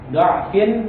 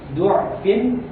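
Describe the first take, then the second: First: The first syllable has an 'a' vowel. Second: The first syllable has a 'u' vowel. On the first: "jadi hanya dibaca do'fin" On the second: "bisa dengan doma"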